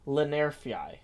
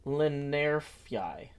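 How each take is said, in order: First: Lenerfyi said smoothly, ending in fyi; Lenerfyi, slow and sure; settled pronunciation. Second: Lenerfyi said slowly, rhyming with Airfyi; slow careful Lenerfyi; rhyming pronunciation. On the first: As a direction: land on Lenerfyi with confidence. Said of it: "I think I got it". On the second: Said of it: "Lenarii rhymes with Airfyi". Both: Shown as a demonstration.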